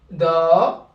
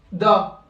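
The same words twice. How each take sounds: First: "da" with the a held for two beats; long syllable. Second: "da" with a short, quick a; short syllable. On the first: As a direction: stretch "da" into a long daa. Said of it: "c'est des syllabes longues". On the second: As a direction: cut the a in "da" to one beat. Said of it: "Syllabe courte". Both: Shown as a demonstration.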